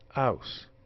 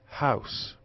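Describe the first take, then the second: First: The word begins with no h sound. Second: The word begins with a clear h sound. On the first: "non-standard house" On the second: "R P house"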